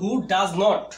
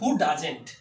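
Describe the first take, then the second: First: Not is said as a full separate word. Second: Not is shortened and joined to does. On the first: "আমরা যদি নট যুক্ত করি" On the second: "contraction use করলে আমরা সেটির উচ্চারণ করতে পারি ডাজেন্ট"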